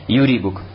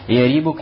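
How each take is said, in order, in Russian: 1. В первом слоге гласная 'u'. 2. В первом слоге гласная 'a'. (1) "нежели «юрибук»" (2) "более правильно и более красноречиво читать «ярибук»"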